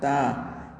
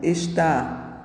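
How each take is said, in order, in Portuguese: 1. A palavra é reduzida a uma sílaba. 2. A palavra é dita por extenso, com duas sílabas. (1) "redução de palavras" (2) "é comum o uso de redução de palavras como"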